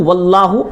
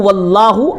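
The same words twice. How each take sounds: The two takes are said the same way.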